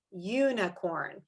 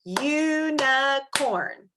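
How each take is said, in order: First: Said in the usual way. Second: "Unicorn" very slow, in three separate drawn-out beats; broken into syllables. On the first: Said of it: "we're gonna clap out the word". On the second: Shown as a demonstration. Teacher inviting children to clap along, "Unicorn" syllable by syllable. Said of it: "we're gonna clap out the word unicorn".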